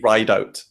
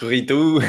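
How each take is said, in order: First: The name is said with a long 'ride' vowel. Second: The name is said the French way, like 'rideau'. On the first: The speaker calls it right. "actually ride out. It's pronounced" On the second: The speaker calls it wrong. "people think it's rideau, like French"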